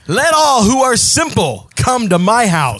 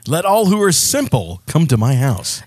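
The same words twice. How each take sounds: First: It is said loudly, like yelling. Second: It is read at normal volume.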